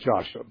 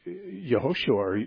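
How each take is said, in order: First: The name is said in an English form. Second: The name is said in a Hebrew form. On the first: The speaker calls it wrong. "probably am reading most of these Hebrew names wrongly" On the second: The speaker calls it right. "his name would have been Yehoshua"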